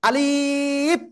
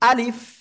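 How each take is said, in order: First: A vowel in the word is drawn out long. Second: The vowels in the word are kept short. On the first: The speaker calls it wrong. "আলিফ এরকম হলে হবে না।" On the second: The speaker calls it right. "আলিফ অক্ষরে কিন্তু কোনো টান হবে না।"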